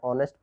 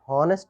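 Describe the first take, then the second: First: The word starts with a vowel, no h. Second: The word starts with an audible h sound. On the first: The speaker calls it right. "इसको ऑनेस्ट पढ़ते हैं, H यहाँ पर silent होता है" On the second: The speaker calls it wrong. "इसको हॉनेस्ट मत पढ़िए"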